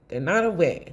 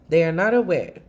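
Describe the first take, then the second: First: Said in the usual way. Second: They are NOT aware, the word not leaned on and louder; stress on not. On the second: Shown as a demonstration. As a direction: spell it out to a client who won't listen, hitting not.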